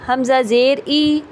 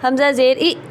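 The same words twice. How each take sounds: First: The final vowel is short and smooth. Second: The final vowel is clipped with a jerk. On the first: The speaker calls it right. "Normal तरीके से" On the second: The speaker calls it wrong. "ये झटका"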